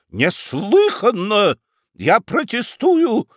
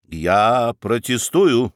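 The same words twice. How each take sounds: First: High, slow shout with a voice cracking. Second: Slow, level, unyielding objection; stubborn protest. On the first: Prosecutor shouting his protest at the judge: cracking yell. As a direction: yell the protest till the voice breaks. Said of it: "срывающимся голосом кричал Рамкомф". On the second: Münchhausen refusing to yield to the judge: slow stubborn objection. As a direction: hold your ground calmly and slowly. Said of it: "не уступал Мюнхгаузен". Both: Acted.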